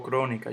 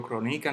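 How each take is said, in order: First: Said in the usual way. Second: Crónica stressed on NI, cro-NI-ca; wrong middle stress. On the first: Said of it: "Digo crónica". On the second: Shown as a demonstration. Teacher showing how not to say it, crónica stressed on NI. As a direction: hit NI in crónica. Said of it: "yo no digo crónica".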